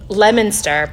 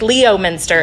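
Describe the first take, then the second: First: The name is said the local Massachusetts way. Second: The name is said as its spelling looks. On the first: This is how locals say it. "you guys would say near Le- Leominster" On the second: This is how an outsider reads it. "looks like Leominster if you're from Indiana"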